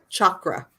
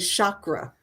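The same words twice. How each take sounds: First: The word begins with a hard ch sound. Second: The word begins with a soft sh sound. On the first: The speaker calls it right. "it's ch" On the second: The speaker calls it wrong. "it's not sha. A lot of people say chakra"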